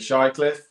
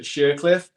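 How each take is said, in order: First: The first syllable sounds like 'shy'. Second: The first syllable sounds like 'sheer'. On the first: This is how most people say the name. "but people say Shycliffe" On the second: This is how one family member says the name. "She pronounces it Sheercliff"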